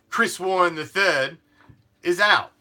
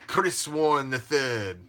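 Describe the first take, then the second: First: It is said in his normal voice. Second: It is said in a put-on fancy accent.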